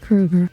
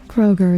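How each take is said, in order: First: The first vowel sounds like 'oo'. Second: The first vowel sounds like 'oh'. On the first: The speaker calls it right. "His name's pronounced Kruger" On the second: The speaker calls it wrong. "wasn't actually pronounced Kroger"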